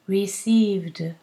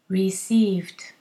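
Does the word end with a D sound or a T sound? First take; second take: D; T. First: The word ends with a voiced D sound. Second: The word ends with a voiceless T sound. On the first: "we need a D for the ED" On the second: "if this is difficult, do a T"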